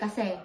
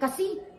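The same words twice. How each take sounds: First: The word is said in a softened way. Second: The word is said in a hard way. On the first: "palambot eh" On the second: "sabihin nyo agad, matigas"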